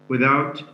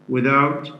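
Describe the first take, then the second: The two takes are said the same way.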